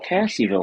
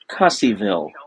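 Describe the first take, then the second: First: The first syllable sounds like 'cass'. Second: The first syllable sounds like 'cuss'. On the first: This is how most people would expect it. "Normally you'd think of" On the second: This is how it is actually said there. "No. Try Cusseyville"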